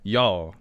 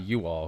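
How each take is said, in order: First: "Y'all" as one Southern syllable; "Y'all" with no separate "you"; y'all contracted. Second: "you all" as two full words; "you all" with "you" fully pronounced; you all separated. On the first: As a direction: say "Y'all" run together as one word. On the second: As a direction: say "you all" uncontracted, both words whole. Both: Shown as a demonstration. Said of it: "not you all".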